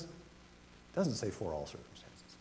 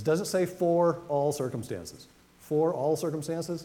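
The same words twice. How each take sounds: First: Hushed, slow whisper of "It doesn't say for all circumstances"; slow hushed whisper, "doesn't" stressed. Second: "for" leaned on, slow and questioning; slow rhetorical question with "for" stressed. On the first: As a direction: drop to a confiding whisper, slowly. Preacher drops to a hush. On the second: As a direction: drive the word "for" home as a question, slowly. Preacher questions the verse wording. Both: Shown as a demonstration.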